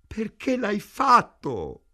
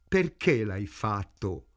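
First: Wailing moan. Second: Said in the usual way. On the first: A narrator's reading. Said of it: "gemette Ida". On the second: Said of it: "gridò Ida".

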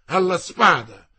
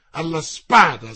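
First: Loud, ringing, insisting on alla; repeated challenge. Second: Loud ringing call to swords; challenge call. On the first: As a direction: hammer the challenge home. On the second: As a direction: bark the challenge out. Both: Acted. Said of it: "voce vibrante e beffarda".

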